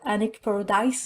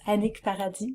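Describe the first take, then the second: First: The name is said with an English pronunciation. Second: The name is said with a French pronunciation. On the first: The speaker calls it wrong. "it's not Annick Paradise" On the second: The speaker calls it right. "it's Annick Paradis in French"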